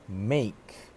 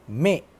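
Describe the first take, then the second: First: "make" with the full gliding "ay" vowel; standard make. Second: "make" as "mek", short e with no glide; mispronounced make. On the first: Shown as a demonstration. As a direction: say "make" as "mayk". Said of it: "instead of make in the I P A". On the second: Retold or imitated. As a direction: cut the vowel of "make" to a plain e. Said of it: "He pronounced the word make as".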